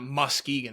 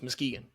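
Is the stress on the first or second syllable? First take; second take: first; second. First: The first syllable, with its u and k, is stressed. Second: The second syllable is stressed, the first is light. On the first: The speaker calls it wrong. "you're putting so much emphasis on that K and the U" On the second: The speaker calls it right. "It's Muskegon"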